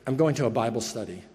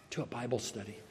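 First: Said in the usual way. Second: Low, barely audible mumble; mumbled. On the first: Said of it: "And so I said". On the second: Retold or imitated. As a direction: mumble it, embarrassed. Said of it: "And I mumbled".

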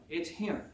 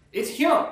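First: Softer, understated reveal; hushed repeat. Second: HIM punched high and loud; emphatic reveal. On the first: Preacher repeating who the Lord is, hushed. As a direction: let it settle quietly after the big statement. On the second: Preacher revealing who the Lord is, emphatic. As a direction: hit HIM hard with a jump up in pitch. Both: Real, not acted.

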